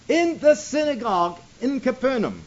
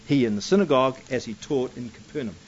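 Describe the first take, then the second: First: "synagogue" stressed, with the phrase raised in pitch; emphatic repeat. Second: Said in the usual way. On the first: Shown as a demonstration. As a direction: lift and press "synagogue" to point it out.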